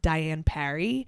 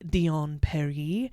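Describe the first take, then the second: First: The name is said the English way. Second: The name is said the French way.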